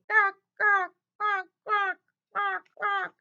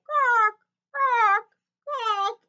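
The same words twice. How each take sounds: First: High, louder little duck quacks; little ducks begging for food, high quacks; small ducks quacking. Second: High, much louder honking quacks; big ducks calling from afar, loud high quacks; big ducks quacking. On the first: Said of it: "They say". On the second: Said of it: "The big ducks say". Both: A narrator's reading.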